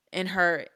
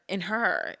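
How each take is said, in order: Both takes have the same delivery.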